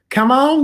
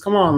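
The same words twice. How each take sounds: First: It is said imitating Miss Minutes' voice. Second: It is said in the speaker's normal voice.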